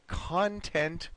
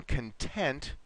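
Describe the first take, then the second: First: "content" stressed CON-tent, full first vowel; contrasting syllable stress. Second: "content" stressed con-TENT, weak first vowel; contrasting syllable stress. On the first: Teacher contrasts two meanings in a sentence, "content" stressed at the start. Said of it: "Content has a different meaning". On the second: Teacher says being happy to teach, "content" stressed at the end. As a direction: lean slowly on the "TENT" of "content". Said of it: "when we pronounce it this way, it means". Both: Shown as a demonstration.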